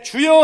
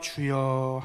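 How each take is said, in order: First: It is said in a joyful, uplifted tone. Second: It is said in a dejected, sighing tone. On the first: The speaker feels joy and gratitude. "이 억양에 따라서는요, 이것이 기쁨과 또 감사의 모습으로" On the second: The speaker feels discouraged and regretful. "기죽고 어깨를 늘어뜨리는 모습"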